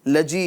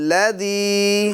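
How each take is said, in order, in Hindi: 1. बीच का व्यंजन j ध्वनि है। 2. बीच का व्यंजन सघोष th ध्वनि है। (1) "लजी लजी यानी जीम वाली आवाज़" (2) "ज़ाल की आवाज़ आएगी"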